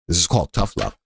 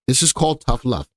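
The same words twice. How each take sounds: First: Lower, put-on stern voice; lightly hammed-up stern lecturer; mock tough-love voice. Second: Said in the usual way. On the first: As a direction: drop into a gruff tough-love parent. Repeats line, second take voiced.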